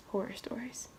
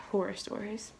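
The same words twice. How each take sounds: First: Breathy spooky whisper of Horror stories. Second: Soft sign-off. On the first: Closing the video, whispering Horror stories spookily. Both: Shown as a demonstration.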